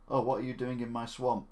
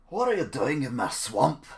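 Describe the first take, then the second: First: Said in the usual way. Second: Loud, slow Scottish ogre impression; Shrek. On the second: Streamer trying the swamp line, loud Shrek impression. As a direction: bellow it slowly, leaning hard on each word. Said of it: "Do Shrek".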